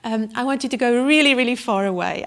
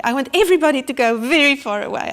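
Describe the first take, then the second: First: Said in the usual way. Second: Louder, faster, rising panic; desperate plea. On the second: Retold or imitated. Sick climber begging the guide to leave, loud and fast. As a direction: push it out fast and loud, pleading. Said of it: "I just can't do this".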